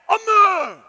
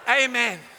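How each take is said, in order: First: It is said deeply, with strong feeling. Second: It is said weakly, without feeling. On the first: The speaker truly means it. The speaker calls it right. "When the Zulus say amen, ... Comes from here" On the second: The speaker does not really mean it. The speaker calls it wrong. "We don't say amen, brother. ... Because you don't mean it"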